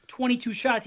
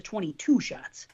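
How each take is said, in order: First: Said in the usual way. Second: Twenty-two shots with the emphasis shifted onto TWO; wrong-syllable stress. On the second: Shown as a demonstration. Host showing how a friend says it, stress on the wrong syllable. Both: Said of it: "There's the emphasis on the wrong syllable".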